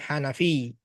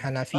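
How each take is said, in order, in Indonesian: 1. Bunyi akhirnya ganda dan ditahan lebih lama. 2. Bunyi akhirnya pendek dan tunggal. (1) "ada tasdidnya ya"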